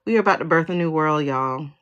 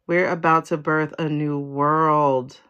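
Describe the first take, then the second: First: Brisk, rushed news to friends; quick announcement. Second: Slow, deliberate proclamation; slow, weighty. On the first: Reader telling viewers of a new world, brisk. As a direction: say it quickly, dropping on the last word. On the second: Reader repeating the new-world news, slow and weighty. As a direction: draw out every word for weight. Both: Real, not acted.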